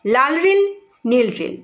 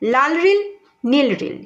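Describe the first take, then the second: The two takes are said the same way.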